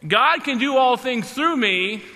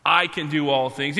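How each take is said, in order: First: "God" stressed and lifted, slow. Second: "I" stressed in "I can do all things". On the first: Preacher giving the right reading, stress on "God". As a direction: put the weight on "God", slowly. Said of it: "So I would say it like this". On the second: Preacher showing the wrong reading, weight on "I". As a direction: lean on the word "I". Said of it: "we put the emphasis on I". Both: Shown as a demonstration.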